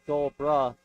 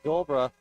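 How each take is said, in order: First: The ending of the name is fully pronounced. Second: The ending of the name is clipped. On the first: The speaker calls it right. "a little bit more of a pronunciation on the ending" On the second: The speaker calls it wrong. "All weekend I've been saying"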